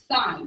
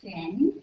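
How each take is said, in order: First: It has a long vowel, like 'sign'. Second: It has a short vowel, like 'sin'. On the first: The speaker calls it right. "it's sine" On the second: The speaker calls it wrong. "we don't say sin"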